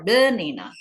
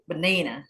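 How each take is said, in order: First: The second syllable is not stressed. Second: The second syllable is stressed. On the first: The speaker calls it wrong. "Jadi bukan banana" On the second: The speaker calls it right. "penekanannya di suku kata kedua"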